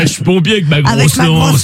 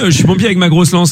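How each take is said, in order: First: It is said in a teasing, suggestive tone. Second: It is said plainly, in a neutral tone. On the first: The statement hints at a sexual double meaning. "mais là t'as dit, ah" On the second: The statement is innocent and literal. "Si tu avais dit, bah oui"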